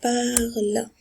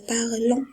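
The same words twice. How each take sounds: First: "parle" with the ending silent, stopping on the l; silent -ent ending. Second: "parlons" with the ending wrongly voiced as a nasal vowel; students' misreading. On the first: Shown as a demonstration. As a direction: model "parle" slowly as one syllable. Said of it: "On a dit c'est". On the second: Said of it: "Et ça, c'est faux".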